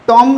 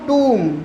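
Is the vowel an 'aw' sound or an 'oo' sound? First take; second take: aw; oo. First: The vowel is an open 'aw' sound. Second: The vowel is a long 'oo' sound. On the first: The speaker calls it wrong. "टॉम नहीं पढ़ेंगे इसे" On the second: The speaker calls it right.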